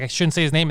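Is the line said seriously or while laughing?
seriously. It is said seriously, with a straight face.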